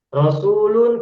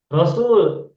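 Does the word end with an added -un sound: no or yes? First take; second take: yes; no. First: The word ends with an added -un sound. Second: The word ends without the added -un sound. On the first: "Rasulun kita baca apa?" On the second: "tanwinnya terbaca tidak? ... Tidak terbaca"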